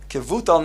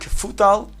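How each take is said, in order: First: The middle consonant is a v sound. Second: The middle consonant is an f sound. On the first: The speaker calls it right. "pronounced with a vase" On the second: The speaker calls it wrong. "not a fei"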